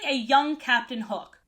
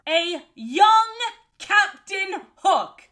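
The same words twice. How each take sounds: First: It is said at normal speed. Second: It is said slowly and deliberately.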